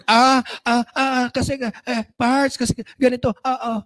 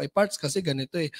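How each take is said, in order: First: Flustered, tripping over ah and kasi; stammering. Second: Lower, softer, composed explanation; steady and reassuring, no stammer; calm answer to an upset reseller; calm reply. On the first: Acted. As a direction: caught off guard and stuttering the excuse. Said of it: "Utal-utal ka na". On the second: Shown as a demonstration. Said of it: "Anong papaliwanag mo?".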